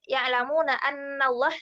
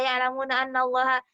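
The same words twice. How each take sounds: First: The nasal sound in 'anna' is held long. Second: The nasal sound in 'anna' is cut short. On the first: The speaker calls it right. "ada gunnahnya ditekankannya" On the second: The speaker calls it wrong. "pasti kita kayak gemes sendiri gitu"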